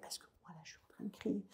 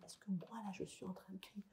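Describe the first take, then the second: First: Put-on soft, fast whisper to calm a child; breathy hush, half-voiced. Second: Barely audible whisper, much softer; the faintest calming whisper. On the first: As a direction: drop to a whisper so the child copies you. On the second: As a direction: fade almost to nothing to calm the child. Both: Shown as a demonstration. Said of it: "de pouvoir descendre ma voix".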